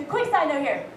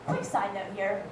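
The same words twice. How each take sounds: First: Said in the usual way. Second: Muttered aside. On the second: Real, not acted.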